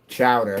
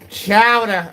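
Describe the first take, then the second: First: It is said in his plain accent. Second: It is said in a New England accent.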